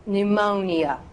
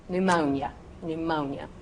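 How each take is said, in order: First: "pneumonia" as "new-MOH-nee-uh"; precise syllables. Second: "Pneumonia" as "new-MOHN-yuh"; slurred together. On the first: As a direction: say "pneumonia" carefully in four syllables. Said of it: "I'm gonna say pneumonia". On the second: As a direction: run the end of "Pneumonia" into one syllable. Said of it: "just gonna slur it together". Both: Shown as a demonstration.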